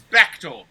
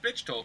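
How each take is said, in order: First: The first syllable sounds like 'beck'. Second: The first syllable sounds like 'bitch'. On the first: The speaker calls it right. "It's Bechtold, like Beck told you a story" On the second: The speaker calls it wrong. "It's not pronounced Bitchtold, like the guy who called my house the other day wanted to pronounce it"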